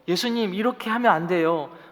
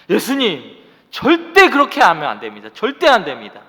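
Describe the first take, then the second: First: It sounds sad and pleading. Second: It sounds defiant and shouted.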